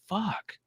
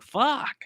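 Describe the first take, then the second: First: The word is said at a quiet volume. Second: The word is said at a louder volume.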